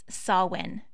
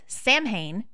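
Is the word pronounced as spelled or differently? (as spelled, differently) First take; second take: differently; as spelled. First: The word is pronounced differently from its spelling. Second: The word is pronounced letter by letter, as spelled. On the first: The speaker calls it right. "It's Samhain" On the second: The speaker calls it wrong. "It's spelled S-A-M-H-A-I-N, and therefore I say it in my head as Samhain, but that's not right"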